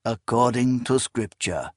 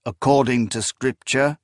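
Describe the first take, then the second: First: Measured answer with a touch of pity; understated, regretful confirmation; pitying reply. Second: "According to scripture?" rising at the end as a question; "scripture" lifted in query. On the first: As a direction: confirm it gently, falling at the end. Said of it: "there was now pity in his voice". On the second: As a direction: ask "According to scripture?" with a lift on "scripture". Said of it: "The man who held her spoke". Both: A narrator's reading.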